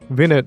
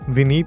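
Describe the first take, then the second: First: The name is said in an English accent. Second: The name is said in an Indian accent. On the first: "If you're in like an English country, they would not say like that. They'd be more like" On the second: "It's said with a really strong Indian accent"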